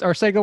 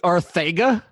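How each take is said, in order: First: The middle consonant is an s sound. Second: The middle consonant is a th sound. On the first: The speaker calls it wrong. "Did I just say it incorrectly?" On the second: The speaker calls it right. "it's actually a TH sound"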